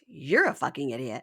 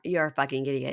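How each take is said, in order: First: Amused parroting of an insult; mocking echo. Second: Said in the usual way. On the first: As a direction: throw the insult straight back, close to laughing. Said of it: "It's all he does is repeat it back". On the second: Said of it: "she stands up and goes".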